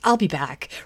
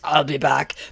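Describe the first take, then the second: First: It sounds casual and weary, like an exasperated mom. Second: It sounds intense and very serious. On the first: Returning is a tiresome chore to fix others' mess. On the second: Returning is a grave, dramatic threat.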